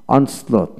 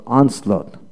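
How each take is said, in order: Both takes have the same delivery.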